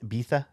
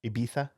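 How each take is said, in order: The two takes are said the same way.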